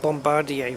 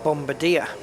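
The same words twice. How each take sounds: First: It is said with a French-style pronunciation. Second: It is said with an English-style pronunciation. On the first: This is how the simulator's controllers said it. "I remember it being pronounced Bombardier from Flight Sim X ... I'm guessing it's French" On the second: This is how the word reads from its spelling. "I look at that word and I would pronounce it Bombardier"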